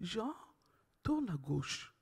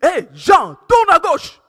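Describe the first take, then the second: First: It is said in a soft, gentle voice. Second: It is said loudly and forcefully.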